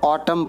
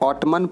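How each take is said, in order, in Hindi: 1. यह शब्द n ध्वनि के बिना समाप्त होता है। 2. यह शब्द n ध्वनि के साथ समाप्त होता है। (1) "इसको ऑटम पढ़ेंगे।" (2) "ऑटमन पढ़ेंगे तो गलत हो जाएगा।"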